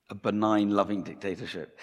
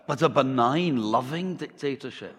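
First: Said in the usual way. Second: Measured Scottish delivery, pitched up; Scottish accent. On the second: Acted. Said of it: "replies the pastor".

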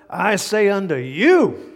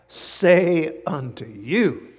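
First: Slow, loud, each word weighted; emphatic scripture. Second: Drawn out, each word slow; slow scripture reading. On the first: Preacher proclaims Jesus' words to the scribes, slow and loud. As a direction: lay it on the line. Preacher reading verse, louder. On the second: Preacher first reads the verse to the congregation, slowly. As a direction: read it slow and solemn. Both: Acted.

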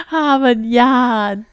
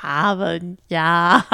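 First: Put-on Boston accent. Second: Put-on slow Boston accent, dropped R. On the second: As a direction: flatten the A, Boston style. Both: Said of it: "try to do your Boston accent".

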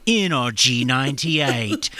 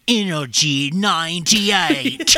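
First: Slow, laughing mock station ident; laughing at the station call she hates; radio jingle imitation. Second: Slow, drawn-out mock radio announcer; mocking the repeated station call; radio jingle imitation. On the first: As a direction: drag it out with a laugh, like a cheesy jingle. Mimicking the radio announcer again. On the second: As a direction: stretch it out like a cheesy station ident.

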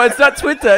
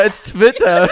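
First: "Twitter" with an English w, higher and louder. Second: "Twitter" with a German v, as Tvitter; German-style Twitter. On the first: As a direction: reject "Twitter" said with a w. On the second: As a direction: stress "Twitter" loudly, w turned to v. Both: Shown as a demonstration.

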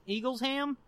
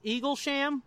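First: "Eaglesham" split as Eagles-ham; alternative name pronunciation. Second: "Eaglesham" with a SH sound, Eagle-sham; tentative name pronunciation. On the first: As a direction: try "Eaglesham" as eagles plus ham, questioning. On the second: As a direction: try "Eaglesham" as eagle plus sham, questioning. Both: Shown as a demonstration. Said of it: "whose name is Dale Eagles".

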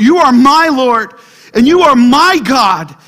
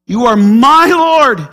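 First: Louder, with "you" and "my" stressed; personal declaration. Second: "my" stressed, said slowly and loudly. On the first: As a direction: declare it as your own. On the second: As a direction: lean hard on "my" in "You are my Lord". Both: Shown as a demonstration. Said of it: "I love the word "my" there".

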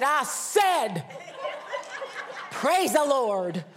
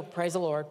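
First: Imitating a loud, high, demanding Southern aunt; insistent mock shout. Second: Imitating a reluctant, unenthused response; half-hearted echo. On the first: Aunt insisting until they shout it, loud drawn-out command. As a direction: draw it out and demand a louder response. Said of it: "until we were shouting it". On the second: Family grudgingly obeying the crazy aunt, half-hearted praise. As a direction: mumble it back dutifully.

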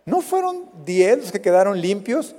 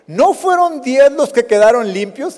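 First: Said in the usual way. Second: Higher, louder rising question; raised questioning. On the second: Retold or imitated. Jesus asking where the nine went, higher and louder. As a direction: ask it out loud, puzzled. Jesus asks about the ten.

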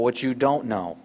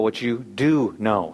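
First: "don't" leaned on and stretched; stress on DON'T. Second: "do" set apart and leaned on; stress on DO. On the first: Preacher freeing listeners from a duty, stress on "don't". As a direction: put the weight on "don't". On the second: Preacher telling listeners their real task, stress on "do". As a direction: pause slightly, then weight "do". Contrast of don't and do know. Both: Shown as a demonstration.

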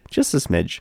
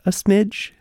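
First: Said in the usual way. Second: Smidge pitched high and coy; playful high smidge; coy understatement. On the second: Shown as a demonstration. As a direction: say smidge with a wink.

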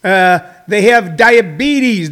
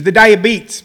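First: Said in the usual way. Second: "diabetes" said "die-uh-beets" with a hard t; diabetes the down-home way. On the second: Shown as a demonstration. Comic doing his hometown's way of saying "diabetes", clipped. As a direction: drop the final syllable: "the diabetes" as "die-uh-beets". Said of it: "where I grew up".

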